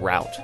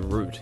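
First: The word rhymes with 'out'. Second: The word rhymes with 'boot'. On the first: This is how others say it. "instead of route" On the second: This is how Australians say it. "we say root"

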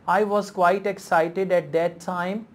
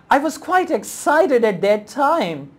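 First: The voice sounds flat and unexcited. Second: The voice sounds lively and excited. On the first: "so I'm not using proper intonation" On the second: "If I say"

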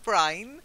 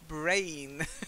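First: The vowel sounds like the 'eye' sound. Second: The vowel sounds like the 'ay' sound. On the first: The speaker calls it wrong. "Not brine" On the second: The speaker calls it right.

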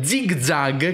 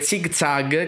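First: The z sounds are soft and gentle. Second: The z sounds are Italian z sounds. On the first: "la pronuncia più corretta, suonava male col labiale perché era sempre molto più dolce" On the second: "un'altra pronuncia possibile con le Z italiane"

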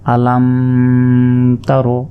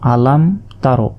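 First: The m is held with a nasal hum. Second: The m is said clearly without a nasal hum. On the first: The speaker calls it wrong. "এইভাবে বলা যাবে না" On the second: The speaker calls it right. "গুণনা ছাড়া এখানে আমাদের পড়তে হবে।"

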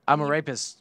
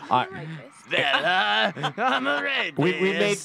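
First: It is said in the speaker's ordinary voice. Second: It is said in a put-on character voice.

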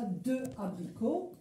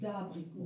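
First: The vowel of 'de' is pronounced separately. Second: The vowel of 'de' is dropped and joined. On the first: The speaker calls it wrong. "On ne dit pas de abricot" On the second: The speaker calls it right. "on enlève le E et on dit d'abricot"

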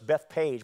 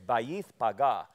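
First: The name is said the English way, 'Beth Page'. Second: The name is said the original way, 'Bayith Paga'. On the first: The speaker calls it wrong. "we pronounce that in English" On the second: The speaker calls it right. "It's Bayith Paga"

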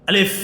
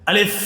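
The two takes are said the same way.

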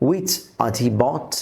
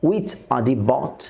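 No difference in how they are said.

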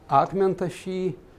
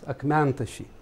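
First: The stress falls on the final syllable. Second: The stress falls on the third syllable from the end. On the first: This is the traditional accentuation. "это традиционная акцентуация" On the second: This is the newer accentuation. "ударение получает не первый слог слова, а третий от конца слог"

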